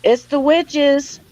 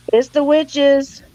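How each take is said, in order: Both takes have the same delivery.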